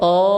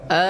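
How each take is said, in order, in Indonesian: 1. Vokalnya berat dan membulat, seperti 'o'. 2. Vokalnya ringan dan terbuka, seperti 'a'. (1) "jangan sampai tebal ... jangan o" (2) "diucapkan dengan tipis"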